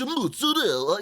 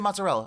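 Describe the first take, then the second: First: It is said with an exaggerated Italian accent. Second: It is said with a plain American accent. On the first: The speaker is showing off cultural sophistication. The speaker calls it wrong. "when like Americans go to an Italian restaurant and they're like" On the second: The speaker is just saying the word simply. The speaker calls it right. "just say mozzarella"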